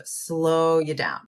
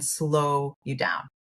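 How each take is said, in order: First: Said in the usual way. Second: Slow you down stretched out slowly, word by word. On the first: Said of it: "I would kind of slow you down". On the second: Shown as a demonstration. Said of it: "literally in the moment".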